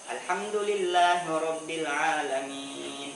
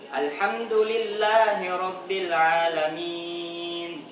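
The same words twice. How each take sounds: First: The last long vowel is held for two beats. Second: The last long vowel is held for four beats. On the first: "itu dua harokat" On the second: "itu empat harokat ya"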